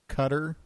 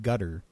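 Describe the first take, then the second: First: It begins with a K sound. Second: It begins with a G sound. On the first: This is how English speakers say the country's name. "We pronounce it Qatar" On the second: This is how Arabic speakers say the country's name. "The Arabic, I believe, pronounces it gutter"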